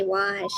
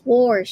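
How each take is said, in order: First: Said in the usual way. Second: Wash said as warsh, with an r before the sh; Denise's warsh. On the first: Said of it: "She doesn't say wash". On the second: Retold or imitated. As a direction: wash with an open aw and an added r. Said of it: "I love how you say that, Denise".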